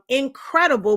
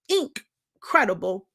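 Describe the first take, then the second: First: The word is said plainly, without extra stress on 'in'. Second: The first syllable 'ink' is emphasized and set apart.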